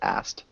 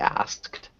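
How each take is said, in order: First: The word ends with only a T sound. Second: The word ends with a K then T sound. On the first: "it often becomes asked" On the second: "it's supposed to be asked"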